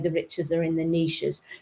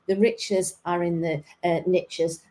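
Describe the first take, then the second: First: Niches is said not rhyming with riches. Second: Niches is said to rhyme with riches. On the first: "It doesn't quite flow the same if I say" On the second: "as the Americans would pronounce it"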